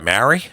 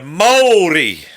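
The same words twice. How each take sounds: First: It is said with an anglicized English pronunciation. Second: It is said with a native Maori pronunciation. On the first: The speaker calls it wrong. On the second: The speaker calls it right. "like that"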